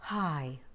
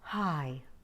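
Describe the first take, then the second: First: The word is spoken with a very breathy voice. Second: The same.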